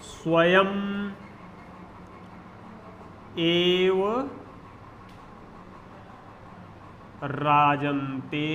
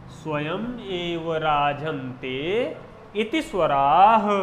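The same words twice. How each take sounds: First: Slow dictation. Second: Slow Sanskrit recitation. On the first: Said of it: "मैं लिख रहा हूं, आप लोग देखिएगा". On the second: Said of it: "परिभाषा बताता हूँ". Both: Shown as a demonstration.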